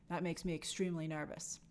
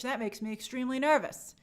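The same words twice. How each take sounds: First: Breathy whisper, much softer. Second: Said in the usual way. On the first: Shown as a demonstration. Host repeating his worry as a whisper. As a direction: hush it like a secret worry. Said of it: "said again whispering". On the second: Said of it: "repeated as whisper".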